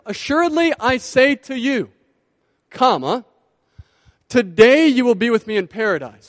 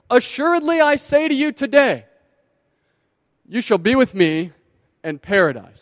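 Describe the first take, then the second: First: The pause comes before the word today. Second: The pause comes after the word today.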